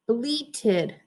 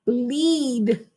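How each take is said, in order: First: "bleated" with a long ee and a clear -ted ending; bleated said right. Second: "bleed" said short, with no -ted ending; bleed as wrong reading. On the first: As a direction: say "bleated", not "bleed". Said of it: "it's bleated". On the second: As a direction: say the mistaken "bleed". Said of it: "but it's not bleed". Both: Shown as a demonstration.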